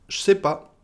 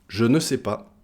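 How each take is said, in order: First: The word 'ne' is left out entirely. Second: The word 'ne' is pronounced in full.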